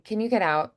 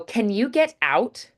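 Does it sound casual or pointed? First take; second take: casual; pointed. First: It sounds casual, with relaxed consonants. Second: It sounds pointed, with crisp consonants.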